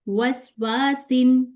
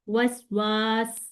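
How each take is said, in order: First: The word ends with its full vowel ending. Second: The word ends on a stopped final consonant. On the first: "पहले मैंने इसको मिला के पढ़ा" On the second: "मैंने उसको साकिन किया"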